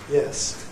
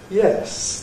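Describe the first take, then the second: First: The pitch falls from a low starting point. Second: The pitch falls from a high starting point. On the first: The speaker is uninterested, cold or bored. "a low fall" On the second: The speaker is engaged and lively. "a high fall"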